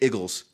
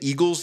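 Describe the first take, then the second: First: It is said in a Philadelphia accent. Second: It is said in a standard accent. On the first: "they'd say eagles" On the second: "Instead of saying eagles"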